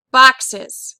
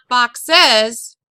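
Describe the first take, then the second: First: "Boxes" with a loud BOX, light ending; stress on root. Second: "boxes" wrongly stressed on the final ES; stress on suffix. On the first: Teacher showing root gets the accent, "Boxes" stressed on BOX. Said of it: "box is the main root word". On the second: Teacher showing students what's wrong, "boxes" stressed on ES. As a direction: push the ES in "boxes" with a full vowel. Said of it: "Not boxes". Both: Shown as a demonstration.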